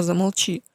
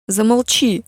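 First: Calm her down, hushing; soothing. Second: Put-on loud desperate scream of a girl; shouting. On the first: Acted. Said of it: "внезапно переменив тон". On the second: Lia screaming at her mother to shut up. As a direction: scream it at her to make her stop. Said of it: "закричала Лия".

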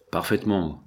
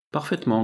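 First: Understated grating menace; lightly grate out the agreement; grated assent. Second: Mildly grumbled, pitched up; growled assent. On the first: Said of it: "grinça Bill Sharper". (légèrement grincé) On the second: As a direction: lightly growl the agreement on a high note. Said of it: "grogna Sharper". (légèrement grogné) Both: A narrator's reading.

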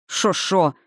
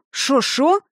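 First: Mocking snap. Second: Sharp rising startled cry; surprised exclaim. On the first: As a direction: throw their words back at them. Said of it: "огрызнулась". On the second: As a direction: blurt it out in shock. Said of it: "воскликнули". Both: A narrator's reading.

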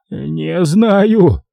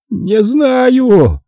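First: High, shaky caretaker's «Не знаю»; trembling babble. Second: Shrieking. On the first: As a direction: mumble «Не знаю» with trembling lips. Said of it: "трясущимися губами пролепетал мужик". («Не знаю» испуганно лепечет, выше голоса рассказчика) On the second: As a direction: shriek «Не знаю!» in terror. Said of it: "проверещал смотритель". («Не знаю!» визгливо, очень высоко и громко) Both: A narrator's reading.

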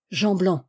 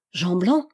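First: Understated thought, falling at the end; inward repetition. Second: Mildly astonished, lifting at the end. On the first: Vaunois repeats the name in his head, inward and understated. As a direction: echo the name to yourself, tone dropping. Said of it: "répéta mentalement Vaunois". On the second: Captain recognises Jean Blanc, mildly astonished. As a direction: say the name in understated surprise, tone rising. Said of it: "dit le capitaine étonné". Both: A narrator's reading.

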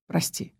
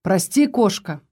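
First: Softer, a quick catch; hurried hushed «Прости»; softly says «Прости»; sudden soft apology. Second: Slow, gentle «Прости, кошка»; slow tender «Прости»; tender apology. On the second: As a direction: soothe her, drawing out «Прости». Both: A narrator's reading. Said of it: "спохватился он".

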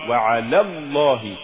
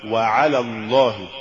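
First: Deliberate slip on وعلى الله; mispronounced recitation. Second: Careful model of وعلى الله; correct recitation. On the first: Narrator shows learners the error in وعلى الله, wrong reading. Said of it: "وكأن يقال". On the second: Narrator shows learners the fix for وعلى الله, correct reading. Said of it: "والصواب". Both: Shown as a demonstration.

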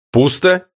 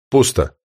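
First: Пусто? rising in alarm; disbelieving question. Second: Said in the usual way. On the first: A narrator's reading. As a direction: ask it in shocked disbelief. Same word, now disbelieving question. (недоверчивый испуганный вопрос)

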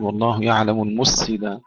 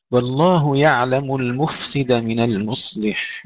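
First: المفسد with the ف lost into the س; wrong swallowed F. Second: المفسد slowly, with a still, hissed ف; slow, careful F. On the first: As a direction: show the error: let the ف vanish in المفسد. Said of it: "ولا نقول". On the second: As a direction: breathe the ف in المفسد clearly. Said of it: "نسكنها مع الهمس". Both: Shown as a demonstration.

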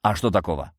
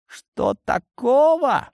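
First: Said in the usual way. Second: Incredulous. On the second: Acted. Cat echoes in disbelief.

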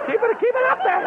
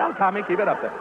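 First: Put-on falsetto echo of the boy's high voice. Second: Said in the usual way. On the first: Shown as a demonstration. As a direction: coach him up in a squeaky high pitch. Echoes the requested high voice.

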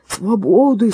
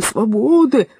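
First: Chanted, lightly voiced hoarse dog, louder; chanted, bark the slogan a bit hoarsely; chanted, dog backing the protest, hoarse rallying cry. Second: Chanted, louder hoarse dog slogan, pushed harder; dog echoing the demand, louder hoarse chant. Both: A narrator's reading. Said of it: "поддержал его хрипатый пёс".

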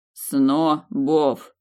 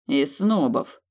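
First: Снобов said slowly, syllable by syllable. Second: Spat out. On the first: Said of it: "слагораздельно повторил он". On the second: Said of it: "выплюнул Сторм". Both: A narrator's reading.

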